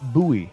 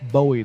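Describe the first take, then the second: First: Not said like the singer's surname. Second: Said like the singer's surname. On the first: The speaker calls it right. "So it's Bowie" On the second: The speaker calls it wrong. "not Bowie, like [name] the Boy"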